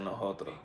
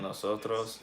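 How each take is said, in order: First: The S sound is aspirated like a breathy h. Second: The S sounds are pronounced fully. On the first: "here they say nosotros" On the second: "Instead of saying nosotros"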